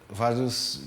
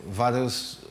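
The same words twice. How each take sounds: The two takes are said the same way.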